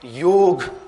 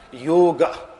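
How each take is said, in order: First: The final vowel is dropped completely. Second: The final vowel is short and closed. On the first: It is the Hindi way of saying it. The speaker calls it wrong. "It is good for Hindi speaking people, but not the proper Sanskrit pronunciation" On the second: It is the proper Sanskrit way of saying it. The speaker calls it right. "The stress being on yo and then ga with a short A"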